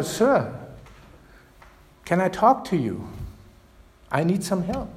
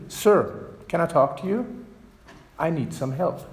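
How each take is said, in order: First: A slightly louder, pleading repeat; a little louder. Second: Said in the usual way. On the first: Retold or imitated. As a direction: ask again, a bit louder and higher. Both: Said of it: "says again a little louder".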